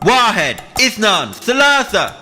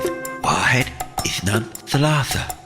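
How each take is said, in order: First: It is shouted as loud as possible. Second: It is said softly and quietly. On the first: "Now let's shout it as loud as we possibly can" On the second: "Nice and quiet to begin with"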